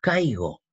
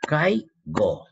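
First: Said in the usual way. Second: "Caigo" in two beats, cai, go; "Caigo" drawn out as cai - go; syllable separation. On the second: Shown as a demonstration. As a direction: split "Caigo" with a clear gap before go. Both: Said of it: "separa en sílaba".

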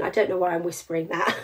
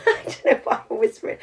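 First: Said in the usual way. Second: Laughing at herself mid-line; amused half-whispered laugh. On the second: Real, not acted. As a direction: giggle through the words.

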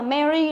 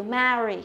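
First: "marry" said wrongly like "merry"; mistaken E sound. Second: "marry" with a wide, open æ; corrected model "marry" with flat æ; flat E sound. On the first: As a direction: narrow the A of "marry" into a short E. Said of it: "nó không phải là như vậy". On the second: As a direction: open the first vowel of "marry" as in "cat". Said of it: "nó cũng là âm E bẹt". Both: Shown as a demonstration.

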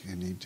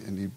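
No difference in how they are said.

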